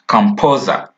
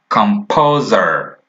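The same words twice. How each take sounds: First: The final r sound is dropped. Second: The final r sound is clearly pronounced. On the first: "but without r sound, then it becomes composer" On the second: "if you are using r sound, then it will become composer"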